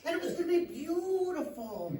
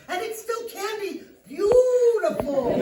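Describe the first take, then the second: First: Said in the usual way. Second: High, loud, stretched-out BEAUTIFUL; desperate placating. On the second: Acted. Psychologist promising armed client it can be beautiful, desperate placating.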